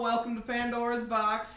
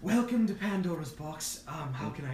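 First: Usual [name] voice. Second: Trying a new voice. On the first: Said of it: "my voice has always sounded like this, darling". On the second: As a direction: test out an unfamiliar voice for the greeting. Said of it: "I could try to sound like something". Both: Acted.

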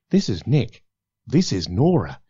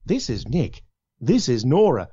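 First: This is Nick, this is Nora, falling and less varied; less inflection. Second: This is Nick, this is Nora with lively rising inflection. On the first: Producer demonstrating lines, read with less inflection. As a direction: flatten the tune, let "Nora" drop. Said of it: "bit less inflection". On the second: Producer demonstrating lines, read with more inflection. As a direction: give "this is Nora" a bright lift at the end. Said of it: "Bit of inflection". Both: Shown as a demonstration.

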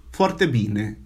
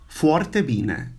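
First: Forte bene with a tapped r, bene as bine; Romanian forte bene. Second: Forte bene, stress on forte; Romanian forte bene. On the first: Teacher models forte bene for students. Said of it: "For example, very good". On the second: Teacher repeats forte bene for students. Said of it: "Say that". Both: Shown as a demonstration.

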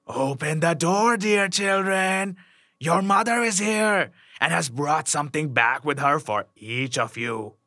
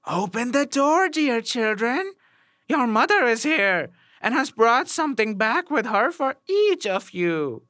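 First: Wolf's rough voice. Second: High, sweetened mock-mother voice; wolf's softened voice. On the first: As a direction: coax them roughly, drawing words out. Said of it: "the wolf by his rough voice". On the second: Wolf back at the door posing as mother, high softened voice. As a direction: coax slyly in a raised, smoothed voice. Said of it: "made his voice soft with it". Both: A narrator's reading.

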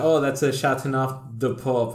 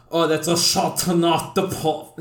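First: Said in the usual way. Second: "Chateauneuf de Pop" in showy, higher-pitched mock French; hammed-up French flourish on "Chateauneuf de Pop"; pretentious French pronunciation. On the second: Shown as a demonstration. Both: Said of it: "I'm not gonna be like".

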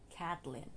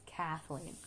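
First: Kathleen said the mistaken way, with a T; wrong pronunciation. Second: Kathleen with a clear TH; correct pronunciation. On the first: Vlogger mocking how people say her name, mispronounced. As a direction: mispronounce Kathleen as "Kat-lin". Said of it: "I hate when people say this". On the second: Vlogger correcting people on her own name, correct pronunciation. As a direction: model Kathleen as KATH-leen. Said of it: "It's Kathleen". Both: Shown as a demonstration.

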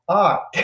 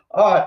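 First: 「あー」 as a curled American R; American R sound. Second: 「あー」 said louder with a heavy curled R; stronger American R. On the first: Showing viewers the hard American R, 「あー」 curled. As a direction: demo the rhotic 「あー」 with the tongue curled back. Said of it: "ってやつ、私もあんまり上手くないんだけど". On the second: Repeating the American R for viewers, 「あー」 louder and curled. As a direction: push the rhotic 「あー」 out firmly. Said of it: "ってやつがなかなか難しいですよね". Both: Shown as a demonstration.

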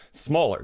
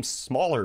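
First: Smaller punched higher and louder; stress on Smaller. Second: Said in the usual way. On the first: Shown as a demonstration. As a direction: hit Smaller hard and let it fall. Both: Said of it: "not bigger".

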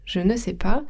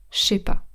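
First: Said in the usual way. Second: „je sais pas” contracted to „shay pa”; potoczne ściągnięcie. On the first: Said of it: "la manière orale de dire". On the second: Shown as a demonstration. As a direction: merge „je sais” into one „shé”. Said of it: "ça devient je sais pas".

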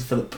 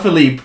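First: Said in the usual way. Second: Philippe with a long "leep" ending; French pronunciation. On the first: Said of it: "Not Philippe, it's Philip". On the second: Shown as a demonstration. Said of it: "it's Philip".

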